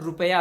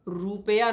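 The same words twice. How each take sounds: First: The vowel after the r is short. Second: The vowel after the r is long. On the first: The speaker calls it right. "रुपया होता है" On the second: The speaker calls it wrong. "रुपया नहीं होता है"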